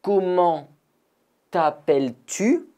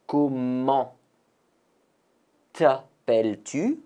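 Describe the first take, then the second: First: Comment t'appelles-tu? pitched high, rising; questioning model. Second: Said in the usual way. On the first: Shown as a demonstration. Teacher asks the class their name, high and rising. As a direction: ask the name warmly, lift at the end.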